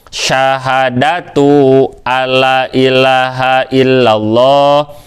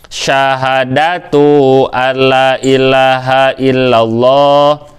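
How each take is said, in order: No difference in how they are said.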